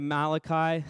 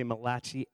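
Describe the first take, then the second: First: Said in the usual way. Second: Malachi misread with a "chee" ending; the slip version of "Malachi"; mispronounced name. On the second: Shown as a demonstration. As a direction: say "Malachi" as if spelled Ma-LATCH-ee. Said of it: "I almost say Malachi every time".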